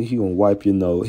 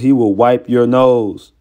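First: Said in the usual way. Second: "He will wipe your nose", slow and weighted on every word; emphatic restatement. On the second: Real, not acted. Restates warning formally, with emphasis.

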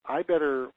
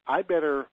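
Both takes have the same delivery.

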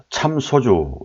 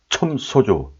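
First: Said in the usual way. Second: 첨 with an eo vowel in place of a; old pronunciation. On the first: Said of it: "원래는 참이 아니고". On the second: Shown as a demonstration. Teacher correcting a brand word to old speech, 첨 said with eo. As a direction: say 첨 소주, the first vowel darkened to eo. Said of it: "옛날 발음에 가깝다고".

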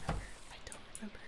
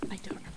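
First: Breathy whisper, barely audible. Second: Said in the usual way. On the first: Real, not acted. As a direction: whisper it to yourself. Repeats the line, then whispers.

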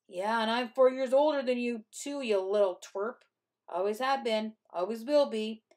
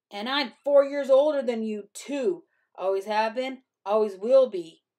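First: Raised, crowing boast; taunting. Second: Loud, higher-pitched boast; sneering. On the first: Older brother calling after his fleeing sister, taunting. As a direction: call it after someone tauntingly. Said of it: "he said after me". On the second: Older brother lording his age over his sister, loud sneer. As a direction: crow it loudly over a younger sibling. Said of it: "he sneered". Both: A narrator's reading.

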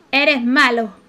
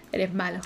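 First: Louder scolding. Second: Said in the usual way. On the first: Acted. Telling off Amir for scaring the kids, louder. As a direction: repeat it louder, telling him off.

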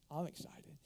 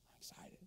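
First: Said in the usual way. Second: Hushed excited whisper; whispered joy; whispered excitement. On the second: Real, not acted. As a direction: whisper it in awe.

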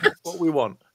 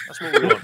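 First: Laughing. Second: Much higher and louder, a squeal; excited squeal. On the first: Repeating the wish for a crossover while laughing. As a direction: back down, laughing through it. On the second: Cheering the crossover idea with a high squeal. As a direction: squeak it out in glee. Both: Real, not acted.

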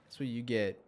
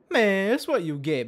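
First: Said in the usual way. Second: Gloating taunt, higher and louder. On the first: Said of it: "repeat with different delivery". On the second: Real, not acted. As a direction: crow it over the defeated fish. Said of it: "repeat louder, higher".

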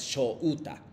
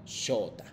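First: "shouta" in separate pieces, sho-u-ta, drawn out slowly; u sounded out. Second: "shota" as shoo-ta, long o with no u; u left unsounded. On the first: Teacher showing students the wrong reading, "shouta" with distinct u. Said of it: "No es shouta". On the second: Teacher correcting the reading of his name, "shota" without distinct u. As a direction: merge the u into the o of "shota", softer. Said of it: "como si no hubiese existido como u". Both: Shown as a demonstration.

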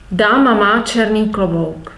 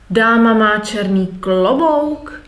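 First: Said in the usual way. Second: Statement wording asked with a rise on "klobouk"; "Dáma má černý klobouk?" with the voice climbing on "klobouk"; question intonation. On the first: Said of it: "Instead of". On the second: Shown as a demonstration. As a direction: lift "klobouk" so it becomes a question. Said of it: "using intonation".

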